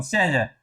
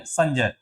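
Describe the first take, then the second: First: संजय with the nasal not matched to ज; संजय said as it is spelled, the nasal not shifted; deliberately wrong संजय; wrong pronunciation. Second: संजय with a palatal ñ nasal before ज; संजय as sañjay, nasal blending into ज; correct pronunciation. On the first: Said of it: "संजय नहीं". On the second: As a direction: model संजय the right way. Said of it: "हमेशा न बोलेगा". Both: Shown as a demonstration.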